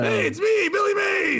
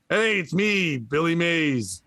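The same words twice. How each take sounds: First: It is said loudly, with lots of energy. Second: It is said flatly, without much energy.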